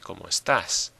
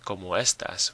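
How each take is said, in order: First: Estas is stressed on its last syllable. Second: Estas is stressed on its first syllable. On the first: The speaker calls it right. "we say como estás" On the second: The speaker calls it wrong. "we don't say como estas"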